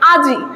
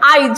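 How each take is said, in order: First: The 'i' vowel comes after the consonant. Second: The 'i' vowel comes before the consonant.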